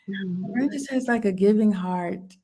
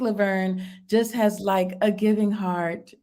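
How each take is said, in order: First: It is said in an imitated character voice. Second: It is said in the speaker's ordinary voice.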